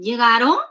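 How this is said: The pitch rises at the end. The speaker asks whether they arrived. "Se eleva"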